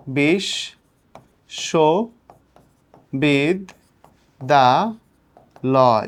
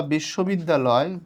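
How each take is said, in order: First: বিশ, সো, বিদ, দা, লয় with a long pause after each syllable. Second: Said in the usual way. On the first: Shown as a demonstration. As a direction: count out বিশ, সো, বিদ, দা, লয় as five separate beats. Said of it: "কয়টা অক্ষর আছে". (বিশ, সো, বিদ, দা, লয় প্রতিটা অক্ষর থেমে থেমে) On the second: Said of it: "তুমি যখন বলবা".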